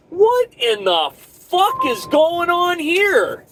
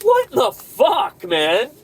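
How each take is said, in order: First: High, slow, drawn-out disbelief; exasperated yell. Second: Fed-up shout. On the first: Trucker venting at dispatch, slow high outrage. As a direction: stretch it out, outraged. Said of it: "be like". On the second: Trucker fed up with the job, shouting. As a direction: blurt it out, fed up. Venting at dispatch about the mess. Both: Pretend.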